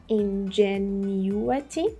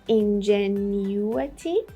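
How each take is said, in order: Both takes have the same delivery.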